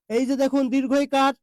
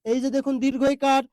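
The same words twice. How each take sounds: The two takes are said the same way.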